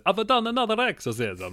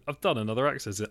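First: High, loud mock Italian accent; Russell Crowe's Italian accent. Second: Said in the usual way. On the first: Host mimics an exorcist pleased with himself, exaggerated Italian accent. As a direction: ham up a proud Italian accent, pitched high. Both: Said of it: "very good impression of his Italian accent".

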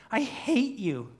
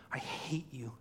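First: High, slow, louder wail; anguished cry. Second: Soft whispered creature hatred; tearful whisper. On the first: Preacher as crying Smeagol facing Gollum, wailing. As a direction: wail it out at your tormentor. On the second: Preacher as crying Smeagol facing Gollum, whispered hurt. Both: Acted. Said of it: "And as Smeagol cries".

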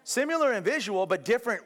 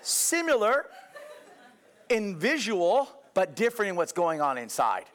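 First: Similar high and firm, different stressed; serious insistence. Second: High, laughing through Similar in visual; chuckles while explaining. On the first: Preacher to congregation, now serious and insistent. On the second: Preacher to congregation, laughing off their doubt. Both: Real, not acted. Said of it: "No, no, no, I'm serious".

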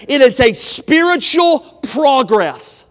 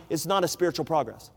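First: Loud, slow, higher shout leaning on spiritual; preached shout. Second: Much softer, lower, quick correction; quiet rebuttal. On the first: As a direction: thunder out "spiritual progress" from the pulpit. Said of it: "Growing as the saint is this". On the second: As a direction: drop the voice to knock down the excuse. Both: Real, not acted.

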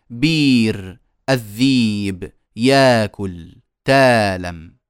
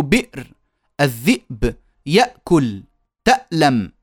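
First: بير الذيب ياكل تالم slow, vowels stretched; no glottal catch in بير الذيب ياكل تالم, just long vowels; hamza turned long vowel. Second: بئر الذئب يأكل تألم each with a glottal catch; full hamza. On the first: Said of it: "فيبدلونها حرف مد". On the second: Teacher showing the difficult original, hamza fully sounded. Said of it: "يصعب عليهم النطق بالهمزة الساكنة". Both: Shown as a demonstration.

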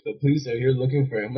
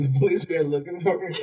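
First: Teacher passing on news, higher than usual; lightly voiced teacher breaking the news; retold teacher's report. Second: High-pitched retold disbelief; mock-astonished repeat, much higher than usual; incredulous echo. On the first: Teacher's news, retold before the echo. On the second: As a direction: echo the news back, pitch jumping up. Pupil echoes teacher's news in disbelief.

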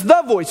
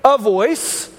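First: "the" punched harder than "voice"; emphatic "the", as the one and only; stress on THE. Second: "a" set apart before "voice"; stress on A. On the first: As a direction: hit the article "the" firmly, then let "voice" fall. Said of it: "He says". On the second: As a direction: lean on the article "a", ending on a rise. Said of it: "Notice he doesn't say". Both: Shown as a demonstration.

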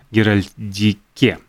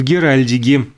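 First: "Геральдике" slow and lower, with a clear k in the last syllable; "Геральдике" drawn out, final "ке" said distinctly; careful self-correction. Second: Said in the usual way. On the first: Real, not acted. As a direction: correct yourself, spelling out "Геральдике" syllable by syllable, ending on a crisp "ке". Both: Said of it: "правильнее так".

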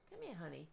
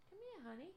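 First: Said in the usual way. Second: High cooing pet voice; calling the cat. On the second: Real, not acted. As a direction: coo at the cat to come. Coaxing the cat to come.

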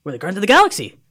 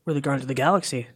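First: Higher, louder announcement; emphatic repeat. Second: Said in the usual way. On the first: Retold or imitated. Crew repeating their name to a baffled stranger, raised and emphatic. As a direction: proclaim it insistently, pitch up.

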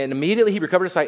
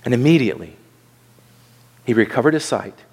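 First: Very fast run through the verse; quick recap reading, no pauses; hurried re-read. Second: Low-pitched, deliberate reading with a long pause; unhurried verse, pausing after "immediately"; measured scripture reading. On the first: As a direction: rattle it off to reach the next part. Hurried re-read to reach congregation's part. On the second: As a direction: read it out solemnly, phrase by phrase. First solemn reading of the verse. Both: Real, not acted.

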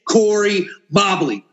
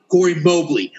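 First: "Mobley" with a short open o, like "mob"; Mobley as MAH-blee. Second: "Mobley" with a long o, like "mobile"; Mobley as MOHB-lee. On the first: Host unsure of the name tries it, "Mobley" rhyming with "wobbly". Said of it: "Corey Mobley or Mobley". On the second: Host unsure of the name tries another way, "Mobley" with a long O. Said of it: "I don't know his name". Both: Shown as a demonstration.

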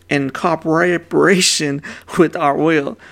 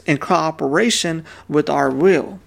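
First: "cooperation" tangled mid-word, a real slip; tripped-up word. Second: Said in the usual way. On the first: Real, not acted. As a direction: stumble on "cooperation", doubling a syllable in the middle. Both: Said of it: "I'm messing up the words today".

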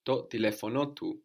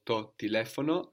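First: "telefonotu" with a second accent rising on the end, te-LE-fo-NO-tu; double accent. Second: "telefono" stressed on the third syllable from the end, te-LE-fono; accent third from end. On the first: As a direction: come up again on NO in "telefonotu". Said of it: "we come up again on the end to kind of join it all together". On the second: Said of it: "we come up again on the end". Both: Shown as a demonstration.

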